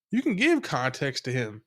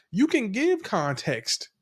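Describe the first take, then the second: First: Said in the usual way. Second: Slow, high stress on give; emphatic. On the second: Real, not acted. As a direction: lean hard on "give" in "You can give context", slow and raised. Host repeats point for emphasis.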